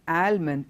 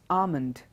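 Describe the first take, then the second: First: The L sound is clearly pronounced. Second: The L sound is left silent. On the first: The speaker calls it wrong. "not almond" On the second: The speaker calls it right. "it is almond"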